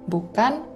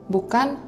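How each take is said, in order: Both takes have the same delivery.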